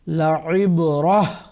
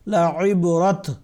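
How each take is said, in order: First: The word ends in a soft h sound. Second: The word ends in a t sound. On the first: The speaker calls it right. "हमने इसको इसी तरह पढ़ा है" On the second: The speaker calls it wrong. "इसको हम इस तरह से नहीं पढ़ेंगे"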